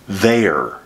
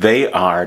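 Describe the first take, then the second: First: It is said as one short contracted syllable. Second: It is said as two full separate words.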